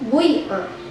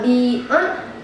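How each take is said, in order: First: The first vowel blends u into i. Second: The first vowel is a clear i sound. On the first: "ismam. Harkat baina dhom wal kaf" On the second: "dibaca dengan kasrah"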